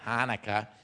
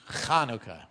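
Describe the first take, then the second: First: The word begins with a plain h sound. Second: The word begins with a throaty ch sound. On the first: The speaker calls it wrong. "It's not Hanukkah" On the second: The speaker calls it right. "you got to say the ch"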